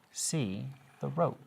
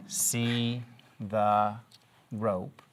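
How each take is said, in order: First: Slow, smooth, even "See the rope" as one phrase. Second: "See the rope" broken into separate words with a pause before "rope". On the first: Teacher reading to young pupils, smooth and rhythmic. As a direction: read "See the rope" together like a sentence. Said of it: "or should I say". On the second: Teacher showing pupils the choppy way, word by word. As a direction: read "See the rope" one word at a time. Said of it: "would it be better for me to say". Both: Shown as a demonstration.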